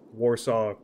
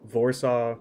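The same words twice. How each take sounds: First: The first sound is a W sound. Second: The first sound is a V sound. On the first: "instead of" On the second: "I think it's"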